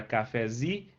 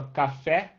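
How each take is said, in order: First: Cafezi with the stress moved onto zi; cafezi, weight on its last syllable. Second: Café with the final fé stressed; café, weight on its last syllable. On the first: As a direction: land on the final zi of cafezi. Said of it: "a sílaba tônica virou zi". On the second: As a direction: land on the fé of café. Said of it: "a sílaba tônica é fé". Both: Shown as a demonstration.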